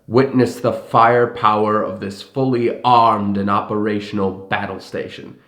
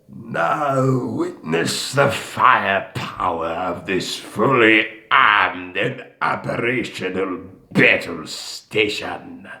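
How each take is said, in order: First: It is said in the speaker's normal voice. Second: It is said in a gravelly Palpatine impression.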